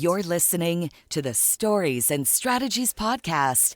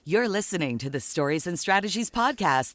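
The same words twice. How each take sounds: First: It is read at a slower, plainer pace. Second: It is read at a faster, livelier pace.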